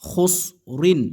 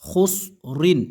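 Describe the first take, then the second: First: The word ends with the syllable rin. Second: The same.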